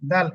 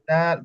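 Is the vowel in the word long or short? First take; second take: short; long. First: The vowel is cut short. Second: The vowel is drawn out long. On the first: The speaker calls it wrong. "দাল এভাবে বলেন তাহলে ভুল হবে" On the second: The speaker calls it right. "দাল সেম একই রকম আপনার লম্বা করে পড়তে হবে"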